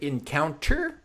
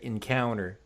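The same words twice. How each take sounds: First: It is pronounced without an American sound. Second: It is pronounced with an American sound. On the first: The speaker calls it wrong. "we're gonna not, not say encounter" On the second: The speaker calls it right. "a good American pronunciation"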